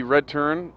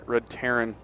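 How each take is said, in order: First: "Terran" squashed into one syllable, "turn"; southern accent. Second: Said in the usual way. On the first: Real, not acted. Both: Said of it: "That was my southern accent coming out".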